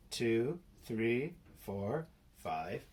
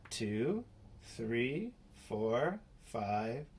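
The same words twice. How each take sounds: The two takes are said the same way.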